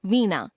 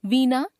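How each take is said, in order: First: Said in the usual way. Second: वीणा as "veena" with dental n; tongue on the teeth for the n of वीणा; mispronounced nasal. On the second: Shown as a demonstration. Teacher showing a common error, वीणा with dental n. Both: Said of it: "नासिक्य व्यंजन संबंधी अशुद्धियां".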